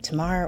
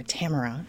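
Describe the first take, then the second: First: Tamara as tuh-MAR-uh; alternative pronunciation. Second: Tamara as TAM-er-uh; alternative pronunciation. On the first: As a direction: say Tamara with stress on the middle, "ah" syllable. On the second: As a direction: say Tamara with stress on a short-a first syllable. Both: Shown as a demonstration. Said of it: "is it Tamara or Tamara".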